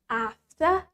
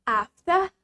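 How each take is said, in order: The two takes are said the same way.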